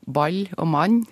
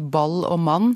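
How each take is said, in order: First: The L and N sounds are palatalized. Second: The L and N sounds are plain, not palatalized. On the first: "en trønder og folk fra Nord-Norge si" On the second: "på min østlandske måte"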